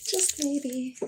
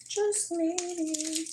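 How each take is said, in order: First: Quiet. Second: High breathy tease; high soft voice. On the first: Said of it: "repeated softer". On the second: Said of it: "repeated higher softer". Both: Shown as a demonstration.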